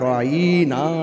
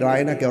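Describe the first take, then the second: First: The vowel is drawn out and stretched. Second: The vowel is said short and plain. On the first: An insult calling someone a shepherd. The speaker calls it wrong. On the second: A request to look kindly on someone. The speaker calls it right.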